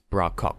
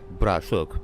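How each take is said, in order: First: The second word begins with a k sound. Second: The second word begins with a sh sound. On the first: The speaker calls it wrong. "it's not pronounced like that" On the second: The speaker calls it right. "It's like bra shuk"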